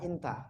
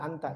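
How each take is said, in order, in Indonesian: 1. Vokal pertama adalah bunyi 'i' yang lebih tertutup. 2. Vokal pertama adalah bunyi 'a' yang terbuka.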